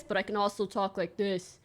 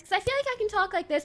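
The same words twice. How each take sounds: First: Deeper, quieter voice; dropping voice deep. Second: Said in the usual way. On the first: Shown as a demonstration. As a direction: drop into a deep register. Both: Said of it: "should do a bit of a deeper voice".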